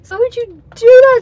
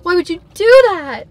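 First: Much louder and higher, near a shriek; outraged yell. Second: Said in the usual way. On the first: Real, not acted. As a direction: yell it at the food in real disbelief. Repeated, far more outraged.

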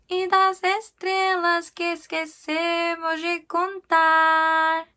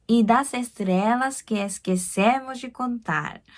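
First: High, slow sung "Y das estrellas que esquecemos de contar"; slow sung demonstration; sung line. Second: "Y das estrellas que esquecemos de contar" spoken slowly; slow careful reading; slow spoken line. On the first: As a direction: sing the phrase up high, slowly. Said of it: "이 부분이 가장 어려웠던". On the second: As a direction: say it slowly for pronunciation. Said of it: "여기서 발음할 때". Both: Shown as a demonstration.

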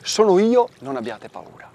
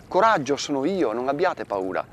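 First: Jesus reassuring. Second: Said in the usual way. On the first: Acted. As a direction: call out, then soften to calm them. Voicing Jesus reassuring disciples.

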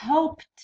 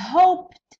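First: Hoped said evenly with a final t; plain model. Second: Hoped called out higher and louder, ending on a t sound; emphatic model word. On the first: Teacher repeating Hoped to students, plain model. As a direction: say Hoped calmly, ending on t. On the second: Teacher calling a word to the class, loud rising model. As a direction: call out Hoped, rising, final t. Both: Shown as a demonstration. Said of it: "ت".

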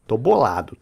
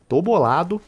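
First: Said in the usual way. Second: Tô bolado with higher rising tune on bolado; mock-sulky rising Tô bolado; rising repeat. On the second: Real, not acted. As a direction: lift bolado up into a mock whine. Repeating complaint after loss.

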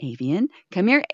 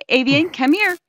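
First: Said in the usual way. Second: Higher, louder calling; raised calling voice. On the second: Real, not acted. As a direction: call the cat firmly.

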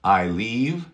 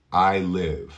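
First: I leave with a long ee in leave; long vowel. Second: I live with a short i in live; live clipped and short; live with a short lax i; short vowel. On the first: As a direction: leave stretched as liiv. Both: Shown as a demonstration.

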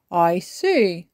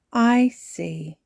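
First: Louder grandfather voice, little raised in pitch; grandpa responding. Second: Higher, louder granny voice; granny responding. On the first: Grandpa hearing about the story deal, knowing. Grandpa answers granny and child. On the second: Granny answering a child who won't sleep, considering. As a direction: take in the child's protest. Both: A narrator's reading.

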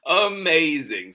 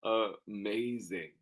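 First: High, loud exclamation from Mom; exclaimed. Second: Slow, softer, at normal pitch; understated. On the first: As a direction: exclaim it, lifted and strong. Mom answers, first reading. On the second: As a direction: draw it out quietly, without exclaiming. Same word, second reading. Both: Acted.

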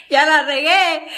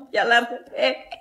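First: Louder and laughing at the mistake; loud laughing admission of a blooper. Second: Said in the usual way. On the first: Real, not acted. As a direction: blurt it out and laugh.

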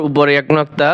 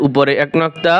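No difference in how they are said.

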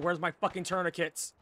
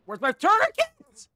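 First: Said in the usual way. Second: High, loud, slow panicked yell; man down shout. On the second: Real, not acted. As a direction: scream it out in desperation. Repeats it, wounded and panicking.

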